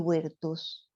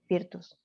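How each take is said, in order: First: The word begins with a W sound. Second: The word begins with a V sound. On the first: The speaker calls it right. "la B corta se pronuncia U en latín" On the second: The speaker calls it wrong. "lo pronuncié mal"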